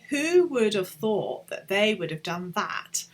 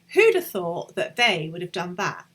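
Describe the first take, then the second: First: 'Who would' is said as two full words. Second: 'Who would' is shortened to one syllable, 'who'd'. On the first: "So you could say" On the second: "in most spoken English, you would just contract that"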